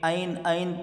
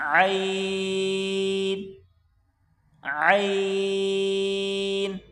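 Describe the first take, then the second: First: It is said lightly without throat force. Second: It is forced hard from the throat. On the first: The speaker calls it wrong. "बग़ैर ज़ोर के" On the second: The speaker calls it right. "गले से निकलेगा ज़ोर लगाकर"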